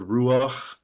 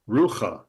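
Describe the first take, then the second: First: The 'a' vowel comes before the final consonant. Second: The 'a' vowel comes after the final consonant. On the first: The speaker calls it right. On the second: The speaker calls it wrong.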